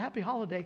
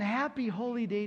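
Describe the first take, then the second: First: The first part is said like 'holly'. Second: The first part is said like 'holy'. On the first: "someone goes" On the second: "respond back with the correct pronunciation"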